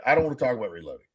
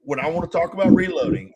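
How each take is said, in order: First: Lower, fast, brushed-off mock whine; dismissive Candy. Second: Said in the usual way. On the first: Mimicking Candy refusing to hear about reloading, dismissive. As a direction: rattle it off like you're sick of the topic. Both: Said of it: "and Candy's like".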